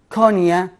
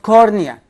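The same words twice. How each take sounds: First: The R sound is left silent. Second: The R sound is clearly pronounced. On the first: The speaker calls it right. "R here is silent" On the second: The speaker calls it wrong. "not cornea. I know that it has R"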